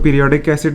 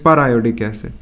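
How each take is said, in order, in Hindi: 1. यह एक ही शब्द की तरह बोला जाता है, 'peer-ee' से शुरू होकर। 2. इसे 'per' और फिर 'iodic' करके, अलग-अलग बोला जाता है। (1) "आप इसको पीरियोडिक एसिड भी पढ़ सकते हो, which is not correct" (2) "it is पर आयोडिक एसिड"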